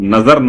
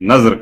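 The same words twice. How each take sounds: First: It is said as two syllables, na-zar. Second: It is said as one syllable, nazr. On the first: The speaker calls it wrong. "उसको नजर ना कहें" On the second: The speaker calls it right. "बल्कि नजर कहें"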